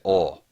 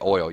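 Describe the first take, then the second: First: It is said in a Southern American accent. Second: It is said in a general American accent. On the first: "you say oil. ... It's a Southern thing" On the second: "you don't say oil"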